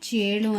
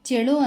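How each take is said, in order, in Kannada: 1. ಮೊದಲ ಸ್ವರ ದೀರ್ಘ. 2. ಮೊದಲ ಸ್ವರ ಹ್ರಸ್ವ. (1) "ಚೇಳು ಅಂತಲೇ ಹೇಳಬೇಕಾಗುತ್ತೆ" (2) "ಚೆಳು ಅಂತ ಹೇಳೋಕ್ಕಾಗಲ್ಲ"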